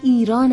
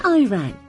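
First: The name starts with an 'ee' sound. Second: The name sounds like the English words 'I ran'. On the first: The speaker calls it right. "تلفظ صحیح ایران است" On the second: The speaker calls it wrong. "نه Iran. به آنها میگفتم که Iran یک جمله است"

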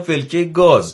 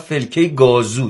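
First: The phrase ends without an added vowel. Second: An extra 'o' vowel is added at the end. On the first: This is how locals actually say it. The speaker calls it right. "در حالی که مثلا شیرازی میگم" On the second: This is a mistaken imitation of the local dialect. The speaker calls it wrong. "خیلی به اشتباه میخوان لهجه یا گویش شیرازی رو داشته باشن"

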